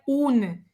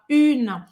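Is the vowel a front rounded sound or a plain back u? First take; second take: plain u; front rounded. First: The vowel is a plain back u sound. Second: The vowel is an i said with rounded lips. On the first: The speaker calls it wrong. "Esse U não, não é igual ao nosso U em português, tá? Não é une" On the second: The speaker calls it right. "Você vai falar a boca do U e você vai dizer I"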